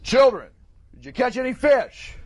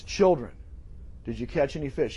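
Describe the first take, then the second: First: Loud, raised call across water; projected, higher-pitched hail; booming voice. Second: Soft, lower-pitched tender question; quiet, caring call; affectionate. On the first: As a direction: call out to a far-off boat. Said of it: "in a booming voice, because it was a hundred feet out". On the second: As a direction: ask gently, as to dear children. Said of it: "He's saying this with affection toward them". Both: Acted.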